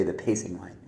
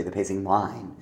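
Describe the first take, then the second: First: PACING line, with line left weak; stress on PACING. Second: Pacing LINE, weight wrongly on the last word; stress on LINE. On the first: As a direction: hit the first syllable of pacing. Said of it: "you say the pacing line". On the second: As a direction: hit line at the end. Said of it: "because you don't say". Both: Shown as a demonstration.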